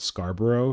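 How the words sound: It is said in a Canadian accent. "when we call it Scarborough"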